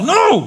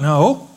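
First: It is yelled loudly. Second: It is said softly, not yelled.

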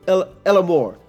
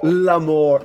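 First: It is said like Spanish el amor. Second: It is said like French l'amour. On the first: The speaker calls it wrong. "You brought a bit of Spanish in. You said el amor" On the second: The speaker calls it right. "It should just be l'amour"

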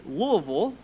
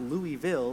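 First: The city name is said the local Kentucky way. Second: The city name is said the outsider's way. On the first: The speaker is from Kentucky. The speaker calls it right. "If you pronounce the city Louisville ... you might be from Kentucky" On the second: The speaker is new to Kentucky. The speaker calls it wrong. "and not Louisville, like we did when we first moved here"

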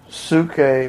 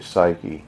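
First: The word is said in its original pronunciation. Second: The word is said in an altered pronunciation. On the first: The speaker calls it right. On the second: The speaker calls it wrong.

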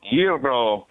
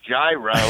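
First: It is said the Greek way, R trilled. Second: It is said with an American pronunciation. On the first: The speaker calls it right. "you got a little bit of a little trill in the R there" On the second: The speaker calls it wrong. "American way"

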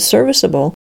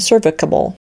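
First: The consonant before -able is a soft S. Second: The consonant before -able is a hard K. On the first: The speaker calls it right. "An E often changes the hard K sound to the soft S" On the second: The speaker calls it wrong. "lest we wonder if these words are to be pronounced"

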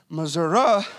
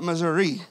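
First: It is said with a local country pronunciation. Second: It is said with a standard, non-local pronunciation. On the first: The speaker is around family from that state. "I start saying Missouri" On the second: The speaker is away from that family. "not Missouri"

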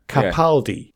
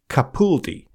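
First: The middle syllable sounds like 'pal'. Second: The middle syllable sounds like 'pool'. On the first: The speaker calls it right. "should be said like Pal" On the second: The speaker calls it wrong. "rather than with a pool"

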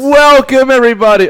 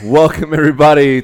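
First: It is said very loudly. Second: It is said more softly.

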